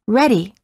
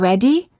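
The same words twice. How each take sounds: First: The middle consonant is a quick tongue tap. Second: The middle consonant is a full, clearly released D. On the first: The speaker calls it right. "we say ready. It's the sound made with the tip of the tongue quickly tapping the gum bridge" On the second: The speaker calls it wrong. "Instead of saying ready"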